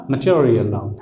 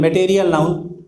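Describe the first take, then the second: First: "मटेरियल" as muh-cho-ri-yal; short muh and ch-like T in "मटेरियल noun"; corrected reading. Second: "मटेरियल" as may-tay-ri-yal; full ay vowels in "मटेरियल noun"; common mistaken reading. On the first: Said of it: "जबकि होगा". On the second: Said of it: "ना मे ठीक हुआ ना टे". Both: Shown as a demonstration.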